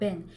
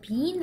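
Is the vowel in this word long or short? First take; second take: short; long. First: The vowel is a short e, like ben. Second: The vowel is a long ee, like bean. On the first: The speaker calls it right. "약간 ben으로 하셔" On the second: The speaker calls it wrong. "빈 하지 마시고"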